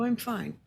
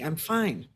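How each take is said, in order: First: It is said in a relaxed, easy tone. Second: It is said with a tense, edgy tone. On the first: The person really is fine. "A ventral, yeah, I'm fine" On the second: The nervous system is dysregulated. "There was a sympathetic edge to that"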